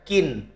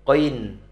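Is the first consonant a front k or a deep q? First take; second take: front k; deep q. First: It starts with a front k sound. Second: It starts with a deep throat q sound. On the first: The speaker calls it wrong. "dibaca kin" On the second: The speaker calls it right. "karena tanwin qoin"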